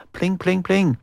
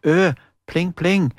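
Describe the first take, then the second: First: Higher sung pling pling like plucked strings; plinking guitar imitation; mock guitar plinks. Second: Sung pling pling like plucked strings; plinking guitar imitation; mock guitar plinks. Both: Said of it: "han klimpra vakkert på gitaren".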